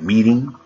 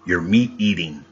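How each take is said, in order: First: Said in the usual way. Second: "meat eating" as two separate words; pun pulled apart. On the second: Shown as a demonstration. Speaker explains the meeting pun, "meat eating" split in two. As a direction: separate "meat" from "eating" so both are heard.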